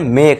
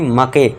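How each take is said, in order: First: It ends on the k with no vowel. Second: A vowel is sounded after the k. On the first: The speaker calls it right. "ई का जो है इसका sound हम ध्वनि नहीं निकालेंगे" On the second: The speaker calls it wrong. "ना कि मके"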